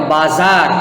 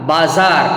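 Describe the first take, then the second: No difference in how they are said.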